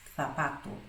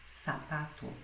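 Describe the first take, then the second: First: The first sound is an interdental th. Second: The first sound is a hissing s. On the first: "o som interdental, porque se coloca a língua entre os dentes" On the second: "na América ela vai ser pronunciada como os dois S do português"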